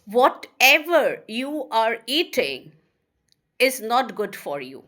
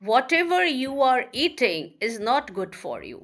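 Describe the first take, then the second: First: Slow, spaced dictation with a pause mid-sentence; slow teacher dictation. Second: Said in the usual way. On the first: Shown as a demonstration. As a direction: read it out slowly for students to write. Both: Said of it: "Or if I say".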